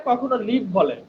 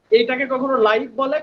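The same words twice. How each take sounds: First: লিভ said with a short clipped ই; live with short i. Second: লাইভ said with a gliding আই diphthong; live with long ai. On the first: Teacher contrasts the two readings of live: লিভ with a short ই. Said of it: "তখন উচ্চারণ হয়ে যাচ্ছে লিভ". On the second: Teacher contrasts the two readings of live: লাইভ with a gliding আই. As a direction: glide the vowel in লাইভ. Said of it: "Facebook লাইভে আছি আমরা". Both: Shown as a demonstration.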